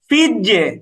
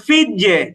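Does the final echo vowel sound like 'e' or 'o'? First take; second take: e; e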